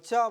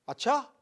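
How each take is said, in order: First: It sounds sarcastic and mocking. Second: It sounds sincerely surprised.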